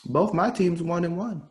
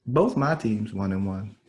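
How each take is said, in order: First: "Both my teams one and one" pitched high; raised-pitch announcement. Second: "Both my teams one and one" slow and lower; slower restatement. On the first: Fan telling co-host about his teams, "Both my teams one and one" pitched high. Same line said two ways. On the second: Fan repeating his teams' record to co-host, "Both my teams one and one" slowed down. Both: Real, not acted.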